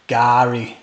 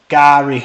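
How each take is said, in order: First: The name is said plainly, without extra energy. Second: The name is said with lively, punchy energy.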